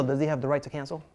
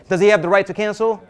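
First: Said in the usual way. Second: Louder repeat. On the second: Shown as a demonstration. Coach repeats question, louder.

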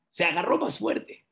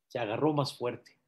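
First: Higher-pitched storytelling repeat; emphatic repeat. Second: Soft, understated storytelling aside; hushed reveal. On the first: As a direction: raise the pitch to underline the twist. Punchline repeated with raised pitch. (repetición enfática en tono agudo) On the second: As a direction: drop the volume for the twist. Punchline said low, then repeated. (revelación en voz baja) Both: A narrator's reading.

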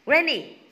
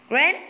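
First: "Rainy." said fully, with a falling tune; corrected word form. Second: "rain?" asked with a rising tune, clipped; questioning "rain?" as an unsure guess; wrong word form. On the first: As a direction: model answer "Rainy.", firm and falling. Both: Shown as a demonstration.

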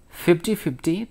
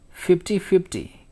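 First: "Fifty fifty?" echoed with a questioning rise; crestfallen echo. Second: "Fifty fifty" stated brightly with a falling close; prompt price. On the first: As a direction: repeat "Fifty fifty?" in dismayed disbelief. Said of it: "The man was obviously crestfallen". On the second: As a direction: rattle off "Fifty fifty" as a confident answer. Shopkeeper quoting price promptly. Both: A narrator's reading.

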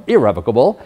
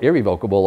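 First: Irrevocable as ih-REV-uh-kuh-bul; short-e pronunciation. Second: Irrevocable as ih-ree-VOKE-uh-bul; long-o pronunciation. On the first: Lawyer showing dictionary options, irrevocable said ih-REV-uh-kuh-bul. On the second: Lawyer showing dictionary options, irrevocable said ih-ree-VOKE-uh-bul. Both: Shown as a demonstration. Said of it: "you can pronounce it".

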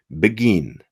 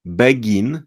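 First: „begin” stressed on „gin”, beGIN; light „be”, stronger falling „gin” in „begin”; stress on last syllable. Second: „begin” with a full Polish „be”, rising at the end; very Polish pronunciation. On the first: Teacher modelling English stress for learners, beGIN. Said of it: "jest mocniej". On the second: Teacher imitating Polish learners' mistake, „begin” with full vowels. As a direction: give both syllables of „begin” full vowels, Polish-style. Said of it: "to brzmicie bardzo po polsku". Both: Shown as a demonstration.

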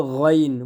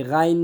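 First: গইন with a rounded "o" start; correct heavy গইন. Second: গাইন with an open "aa"; wrong pronunciation, গাইন. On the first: Shown as a demonstration. Teacher giving the correct word, গইন heavy and rounded. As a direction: thicken গইন, starting "gho" rather than "gaa". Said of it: "মোটা হবে". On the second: Retold or imitated. Teacher showing learners' mistake, গাইন with spread "aa". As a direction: say গাইন light, starting "gaa". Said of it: "গাইন না".

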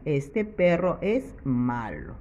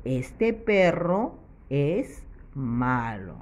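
First: Said in the usual way. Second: Slow, clearly spaced teacher reading; slow model sentence. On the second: Shown as a demonstration. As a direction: read it out slowly for the children. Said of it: "para que diga".

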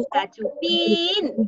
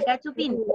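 First: Cachupín called out high, PÍN held long; drawn-out dog call, higher on Cachupín's last syllable. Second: Said in the usual way. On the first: Shown as a demonstration. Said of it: "Llama a Cachupín".

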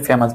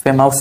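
First: ফেমাস said as "fe-mas"; ফেমাস with a plain "a" in the ending; correct pronunciation demo. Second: ফেমাস said as "fe-maus"; ফেমাস ending like "mouse"; mispronunciation demo. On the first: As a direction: end ফেমাস on a short "-as", no "ow". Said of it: "ওইউএস উচ্চারণ কি আস". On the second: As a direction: put an "ow" in the last syllable of ফেমাস. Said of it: "আমরা কি বলি". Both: Shown as a demonstration.

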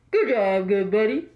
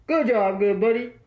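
First: Truck driver radio voice. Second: CB radio trucker talk; truck driver radio voice. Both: Pretend. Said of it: "the truck driver cheer".

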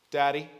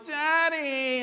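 First: Said in the usual way. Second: Put-on high, drawn-out kid's whine; mock whinese, pitched way up; whiny child. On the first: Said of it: "Start over". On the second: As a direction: imitate a child whining for a parent. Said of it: "My kids will talk in whinese".

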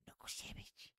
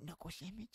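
First: Put-on breathy little-girl whisper, no voice; whispered knuckle sandwich. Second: Soft, hushed, almost voiceless; whispered knuckle sandwich. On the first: Retelling a little girl's TikTok line, whispered. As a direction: hiss it like a tiny menace. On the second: Retold or imitated. Showing friends how he says it now, hushed. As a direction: breathe it out like a tiny threat. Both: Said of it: "like that".

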